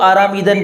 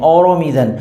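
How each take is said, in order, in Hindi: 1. पहले दो स्वर 'ah' जैसे सुनाई देते हैं। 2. पहले दो स्वर 'oh' जैसे सुनाई देते हैं। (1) "आपको आरामीदन पढ़ना है आराम से" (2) "अदा करते हैं औरोमीदन"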